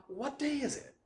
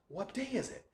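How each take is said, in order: No difference in how they are said.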